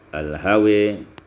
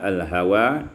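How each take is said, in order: First: The final vowel is tilted toward 'e'. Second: The final vowel is a plain open 'a'.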